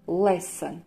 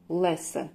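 First: The second syllable has a reduced vowel. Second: The same.

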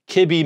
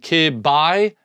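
First: The last syllable sounds like 'bee'. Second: The last syllable sounds like 'bye'. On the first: "to call it B. So it's mebi, kibi" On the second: "rather than call it BI, so rather than kib, bi"

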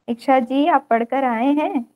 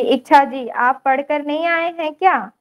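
First: It is said in an even, level voice. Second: It is said in a raised, high voice.

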